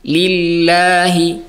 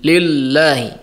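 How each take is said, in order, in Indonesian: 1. L dibaca tipis dan ringan. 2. L dibaca tebal dan berat. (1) "Tapi dibaca tipis" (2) "Jadi tidak dibaca li, lil, lillahi"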